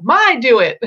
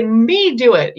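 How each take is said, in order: First: Put-on higher and louder little kid; a hint of a toddler's "My do it". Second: Put-on a light toddler voice, higher and louder; a hint of a toddler demanding "Me do it". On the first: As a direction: lightly mimic a toddler saying "My do it". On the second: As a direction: play the little kid insisting "Me do it". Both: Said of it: "if they say".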